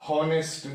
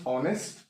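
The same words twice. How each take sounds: First: Honest with the h pronounced, "honest" as in "hot"; sounded H. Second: Honest starting straight on the vowel, no h; silent H. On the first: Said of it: "Why we not call". (honest में H बोलकर) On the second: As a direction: drop the H in honest. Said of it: "that is H silent है". (honest में H silent) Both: Shown as a demonstration.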